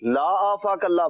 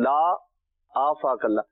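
First: The words run together without a pause. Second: There is a pause after the first word. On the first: It wishes that God not keep the listener safe. The speaker calls it wrong. "अगर मिला के पढ़ दें" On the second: It refuses, then wishes that God keep the listener safe. The speaker calls it right. "जिस अंदाज में मैं पढ़ रहा हूँ"

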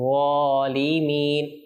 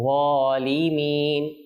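The two takes are said the same way.

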